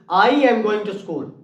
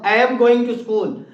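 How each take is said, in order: First: I and am are joined into one syllable. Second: I and am are said as two full words.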